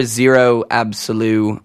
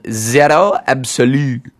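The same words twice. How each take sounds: First: Zero Absolu with an English r, ZEE-roh; English pronunciation. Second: French accent. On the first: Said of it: "or Zero Absolu". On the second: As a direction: say Zero Absolu in a French accent. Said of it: "with my awesome French accent". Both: Shown as a demonstration.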